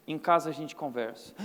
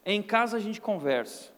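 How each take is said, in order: First: Low, quiet, ominous father's warning; stern father. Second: Said in the usual way. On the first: Retold or imitated. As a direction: lower the voice like a stern dad. (pai severo, voz baixa e ameaçadora) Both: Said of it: "Quando meu pai virava e falava assim".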